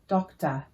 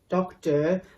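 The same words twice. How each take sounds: First: The ending is a short, weak uh sound. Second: The ending is a full, pronounced or sound. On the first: The speaker calls it right. "things like teacher, collar, doctor" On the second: The speaker calls it wrong. "We don't say teacher, collar, doctor. That's not how Australians talk"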